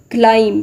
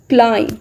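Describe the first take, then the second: First: "climb" ending in an audible B; sounded B. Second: "climb" as KLIME; silent B. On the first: Teacher showing learners what not to say, B sounded. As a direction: say "climb" as KLIME-B. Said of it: "It's not climb". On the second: Teacher correcting the common mistake, silent B. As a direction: end "climb" on the M. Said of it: "B is again silent". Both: Shown as a demonstration.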